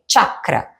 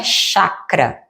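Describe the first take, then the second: First: CHAKRA begun with a crisp tch, as if a silent T led it; correct pronunciation. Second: CHAKRA begun with a soft sh sound; wrong pronunciation. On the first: Yoga teacher correcting students, CHAKRA with a tch onset. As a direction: say "chakra" as "tchakra". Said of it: "como se tivesse um T mudo no início". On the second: Yoga teacher showing students the mistaken way, CHAKRA with an sh. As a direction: say "chakra" as "shakra", no t at the start. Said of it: "observe bem a pronúncia correta. Não é". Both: Shown as a demonstration.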